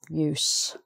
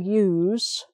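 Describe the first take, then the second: First: The word ends with a hissing s sound. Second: The word ends with a buzzing z sound. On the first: It is the noun. "with an S sound" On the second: It is the verb. "which is the Z sound"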